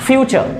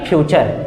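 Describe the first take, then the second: First: The first sound is an f, lips apart. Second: The first sound is a ph, lips pressed together. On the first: The speaker calls it right. "Its फ्यूचर" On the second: The speaker calls it wrong. "ना कि फ्यूचर"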